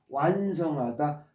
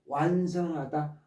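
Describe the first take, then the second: Both takes have the same delivery.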